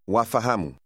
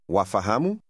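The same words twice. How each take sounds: First: The voice falls at the end, as a statement. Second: The voice rises at the end, as a question.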